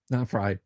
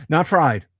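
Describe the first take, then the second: First: "Not fried" said again lower and softer, tossed off; quiet aside. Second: Said in the usual way. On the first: Shown as a demonstration. Streamer correcting himself to chat, lower and softer.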